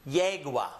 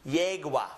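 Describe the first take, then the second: The two takes are said the same way.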